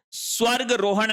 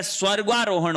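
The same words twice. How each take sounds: First: स्वर्ग रोहण with short "ga" before ro; no long aa in स्वर्ग रोहण; wrong form. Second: स्वर्गारोहण with long "gaa"; correct form. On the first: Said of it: "स्वर्ग रोहण नहीं होता है". (स्वर्ग रोहण में "ग" छोटा) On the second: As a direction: hold the aa in स्वर्गारोहण. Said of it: "स्वर्गारोहण होता है". (स्वर्गारोहण में "गा" लंबा) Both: Shown as a demonstration.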